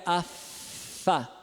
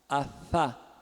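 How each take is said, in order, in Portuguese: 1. O atrito é entre o lábio e os dentes. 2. O atrito é entre os dois lábios. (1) "Não é a, Fá. Tá vendo? A, Fá é lábio dental" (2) "O surdo é bilabial, fricativo plano"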